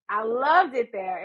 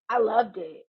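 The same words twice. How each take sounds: First: Slow, leaning hard on loved; stress on loved. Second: Said in the usual way. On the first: Real, not acted. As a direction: stretch out loved, savoring it.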